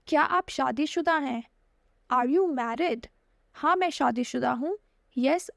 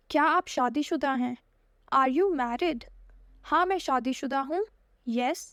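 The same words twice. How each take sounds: The two takes are said the same way.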